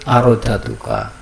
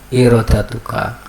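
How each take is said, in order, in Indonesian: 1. Kata ini diawali dengan vokal 'a'. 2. Kata ini diawali dengan vokal 'i'. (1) "Kemarin saya menyebut arodatuka" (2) "yang betul itu irodatuka"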